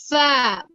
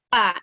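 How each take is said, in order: First: It starts with an f sound. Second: It starts with a p sound. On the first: The speaker calls it right. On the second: The speaker calls it wrong. "bukan pa"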